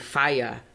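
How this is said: It is said with a British accent.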